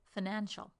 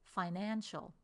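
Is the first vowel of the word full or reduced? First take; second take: reduced; full. First: The first vowel is a short, reduced schwa. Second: The first vowel is a longer, full vowel.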